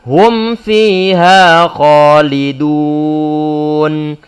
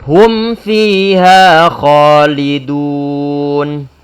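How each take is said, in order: The two takes are said the same way.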